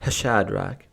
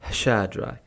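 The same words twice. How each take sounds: First: The name is said with a marked H sound. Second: The name is said plainly, no extra H.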